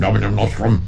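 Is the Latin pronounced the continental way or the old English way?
old English. The Latin is said with old English vowels. "the vice master in the old English pronunciation"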